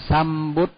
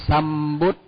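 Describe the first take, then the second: The two takes are said the same way.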